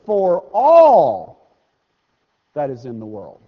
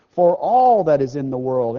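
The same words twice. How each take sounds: First: All hit hard and loud, then the rest dropped; stress on all. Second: Said in the usual way. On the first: Shown as a demonstration. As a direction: punch "all" like a preacher. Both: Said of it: "I wanna emphasize this".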